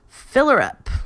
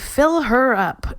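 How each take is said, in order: First: The h sound of her is dropped. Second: The h sound of her is pronounced. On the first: The speaker calls it right. "always with that dropped H" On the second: The speaker calls it wrong. "you wouldn't say"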